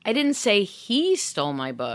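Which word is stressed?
he. The stress is on "he".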